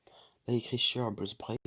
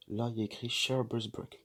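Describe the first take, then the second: First: A careful attempt at English for Share Buzz Break; trying English accent. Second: Rough French reading of Share Buzz Break; heavy French accent. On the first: Shown as a demonstration. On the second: Real, not acted. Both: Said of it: "excusez-moi pour l'accent anglais".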